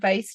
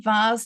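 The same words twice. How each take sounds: First: The vowel is 'ay', rhyming with face. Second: The vowel is long 'ah', rhyming with Mars. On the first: This is how another accent says it. "not vase to rhyme with face" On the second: This is how the speaker's own accent says it. "I say vase to rhyme with Mars"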